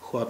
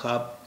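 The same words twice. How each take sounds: First: It is said with a w sound after kh. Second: It is said without a w sound after kh. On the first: The speaker calls it wrong. "ख्वाब नहीं होता है" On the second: The speaker calls it right. "ये इसका उच्चारण होता है ख्वाब"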